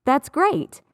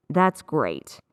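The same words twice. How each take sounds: First: High, pleased "That's great"; genuinely excited. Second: Low, falling, unimpressed "That's great"; dry sarcasm with a falling end; sarcastic. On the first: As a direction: lift the pitch as if truly happy at the news. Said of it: "is genuine". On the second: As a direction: drop the pitch so the praise sounds insincere. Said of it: "that's sarcasm". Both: Shown as a demonstration.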